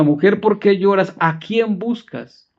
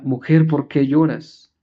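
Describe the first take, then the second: First: Second, more pressing asking. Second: First gentle asking. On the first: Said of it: "La segunda". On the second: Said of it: "La primera". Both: Retold or imitated.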